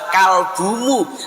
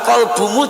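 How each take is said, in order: First: The first syllable sounds like a plain 'kal'. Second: The first syllable sounds like a deep 'kol'. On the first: The word means dog. The speaker calls it wrong. "yang diucapkan adalah kalbumu" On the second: The word means heart. The speaker calls it right. "Mau mengucapkan kolbumu dibenahi"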